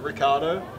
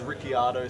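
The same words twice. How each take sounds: First: The vowel of the second I is dropped. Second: The vowel of the second I is pronounced. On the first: The speaker calls it right. "Get rid of the second I" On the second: The speaker calls it wrong. "sounds terrible"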